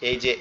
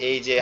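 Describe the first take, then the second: No difference in how they are said.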